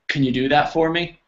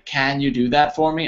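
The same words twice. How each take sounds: First: The word 'can' is weak and reduced. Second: The word 'can' has a full, clear vowel. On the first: The speaker calls it right. "I say, ... It changes" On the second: The speaker calls it wrong. "I don't say"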